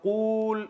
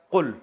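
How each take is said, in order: First: قول drawn out high as qooool; overlong vowel. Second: قل said short as qul; quick single-beat qul for قل; shortened vowel. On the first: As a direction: stretch the oo in قول far too long. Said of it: "اب قول اتنا لمبا ہے". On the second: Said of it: "اس کو بنا کے دیا قل". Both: Shown as a demonstration.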